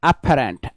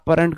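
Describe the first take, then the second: First: Breathy, aspirated English-style p and t sounds. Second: Plain Indian-style p and t sounds.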